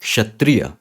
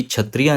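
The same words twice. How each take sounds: First: क्षत्रिय said kshatriya, k then sh; क्षत्रिय with a clear k-sh start; right kshatriya. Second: क्षत्रिय said chhatriya, with a plain chh sound; wrong chhatriya. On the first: Teacher models the correct kshatriya. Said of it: "क्षत्रिय, ये सही". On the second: Teacher repeats the wrong chhatriya. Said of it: "कि क्षत्रिय नहीं". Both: Shown as a demonstration.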